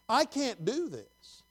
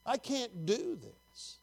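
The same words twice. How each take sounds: First: Slow, high plea; crying out to God. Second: Softer, slow, high plea; crying out to God. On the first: Preacher voicing one who cries unto the Lord, slow high plea. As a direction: draw out a helpless plea. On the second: Preacher voicing a weary cry unto the Lord, hushed high plea. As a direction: repeat the helpless plea more quietly, drawn out. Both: Acted. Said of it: "when you cry unto the Lord".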